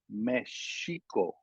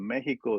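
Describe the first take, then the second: First: The x is sounded as sh. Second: The x is sounded as ks.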